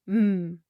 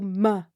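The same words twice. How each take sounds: First: The consonant is a pure stretched sound. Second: The consonant ends with an added uh vowel. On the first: The speaker calls it right. "try saying the sound as a pure stretched sound, no uh at the end" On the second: The speaker calls it wrong. "adding an uh sound to consonants, ... m instead of m"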